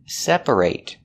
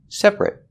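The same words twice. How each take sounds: First: The last syllable has a full long 'ate' sound. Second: The last syllable is reduced to an 'it' sound. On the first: It is used as a verb. "When it's a verb, we pronounce it separate" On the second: It is used as an adjective. "When it's not a verb, we pronounce it separate. Separate with the it, it, it sound"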